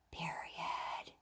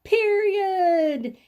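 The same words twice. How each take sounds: First: Soft, voiceless whisper. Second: High, sung-out call; louder voice. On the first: Teacher prompts the class to name the mark, whisper voice. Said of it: "hear your whisper voice". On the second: Teacher has the class repeat the mark, louder voice. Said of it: "say it a little louder". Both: Shown as a demonstration.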